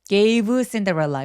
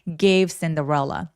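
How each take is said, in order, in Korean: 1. gave 뒤에 모음이 하나 더 들어갑니다. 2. 모음은 안 넣어요. v는 가볍게, 바람 소리 나게 해요. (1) "이렇게 모음 집어 넣지 말고" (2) "부드럽게 아주 가볍게"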